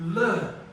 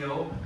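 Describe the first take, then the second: First: It is said as a held 'lll' sound. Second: It is said as the letter name 'el'. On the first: The speaker calls it right. "we call it the L" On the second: The speaker calls it wrong. "we don't call it the L"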